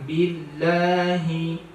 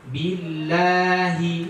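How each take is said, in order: First: The final syllable comes out through the nose. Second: The final syllable comes out through the mouth. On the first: The speaker calls it wrong. "Jangan billahi, hi itu dari hidung" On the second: The speaker calls it right. "tapi dari mulut"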